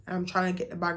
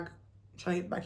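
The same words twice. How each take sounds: First: Said in the usual way. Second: Dropped much softer, almost under breath; quiet repeat. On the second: Real, not acted. Narrator retelling to viewers, muttering the line softer.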